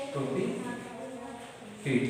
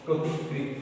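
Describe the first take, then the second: First: প্রতিকৃত stretched very slowly, pitched up and softer; slow, soft dictation. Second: Said in the usual way. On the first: Shown as a demonstration. Teacher modelling word slowly for pupils. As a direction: breathe out প্রতিকৃত slowly and high. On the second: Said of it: "দেখো".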